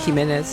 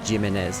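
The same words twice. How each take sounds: First: The name is said with Spanish sounds. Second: The name is said with English sounds. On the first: The speaker calls it right. "You can't just say Jimenez? ... Spanish pronunciation" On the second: The speaker calls it wrong. "I love how Crew Chief Jim says Jimenez"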